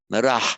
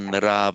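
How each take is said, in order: First: The word ends with a breathy 'h' sound. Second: The word ends on a plain vowel. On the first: "a very correct visarga" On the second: "the visarga drops off because we have the voice v"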